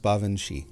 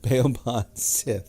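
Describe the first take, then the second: First: The name sounds like 'bavanshee', ending in 'shee'. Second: The name is read letter by letter, ending in 'sith'. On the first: The speaker calls it right. "it's actually pronounced Bavanshi" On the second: The speaker calls it wrong. "Looks like Beoban Sith"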